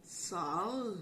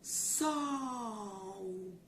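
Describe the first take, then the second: First: "Sol" with a hard, held consonant L at the end; "Sol" ending in lll rather than a u glide; odd literal pronunciation. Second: "Sol" stretched, ending in a u glide, like "sóu"; natural word, drawn out. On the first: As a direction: say "Sol" letter by letter, tongue staying on the final L. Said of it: "Que estranho". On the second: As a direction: say "Sol" long with the L softened to u. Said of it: "Vou tentar de novo". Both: Shown as a demonstration.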